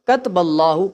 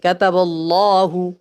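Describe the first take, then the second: First: One short vowel is dropped from the word. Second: Every short vowel in the word is pronounced. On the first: The speaker calls it wrong. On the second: The speaker calls it right.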